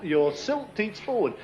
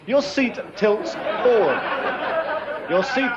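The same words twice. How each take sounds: First: Slow, words round a mouthful; mouth full. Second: Slow, careful words through foam; mouth full. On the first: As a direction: talk through a mouthful of foam. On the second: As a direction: say it slowly around the mouthful. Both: Real, not acted. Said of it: "it's not easy to talk with a mouthful".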